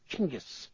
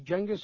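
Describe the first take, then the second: First: The name begins with a 'ch' sound. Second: The name begins with a soft 'j' sound. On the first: The speaker calls it right. "It's like China" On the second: The speaker calls it wrong. "it's not pronounced correctly when we say Genghis"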